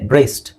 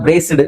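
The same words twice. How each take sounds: First: The ending is soft with no extra syllable. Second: The ending is a full 'sid' syllable. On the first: "soft ಆಗಿದೆ" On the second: "ಅಲ್ಲಿ ಸಿಡ್ ಸಿಡ್ ಸಿಡ್ ಅಂತ ಬರುತ್ತೆ"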